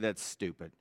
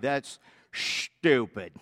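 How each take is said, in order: First: It is said in a plain, neutral accent. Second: It is said in a drawn-out Arkansas accent. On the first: "But he didn't say it like that" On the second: "He's from Arkansas. It had like three S's and four H's"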